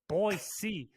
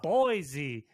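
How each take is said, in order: First: The middle consonant is a hissing s sound. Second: The middle consonant is a buzzing z sound. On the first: This is how everybody there says it. The speaker calls it wrong. "why everybody's saying Boise" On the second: This is how the name should be said. The speaker calls it right.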